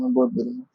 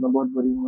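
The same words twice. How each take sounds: First: Much higher wailing cry with बहुत lifted; crying out in guilt. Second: Quiet, broken self-blame while weeping; crying out in guilt. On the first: Guilty girl weeping to her friend, high wailing cry. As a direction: break into a high, soft wail of self-blame. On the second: Guilty girl weeping to her friend, mild crying. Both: A narrator's reading. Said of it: "चीख चीख कर रोने लगे और बार बार ये कह रही थी".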